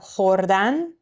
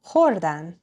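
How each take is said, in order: First: The stress is on the last syllable. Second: The stress is on the second-to-last syllable. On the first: It is the infinitive, to eat. "to eat" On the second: It means they ate. "they ate"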